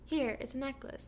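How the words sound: It is said in a nice, friendly tone.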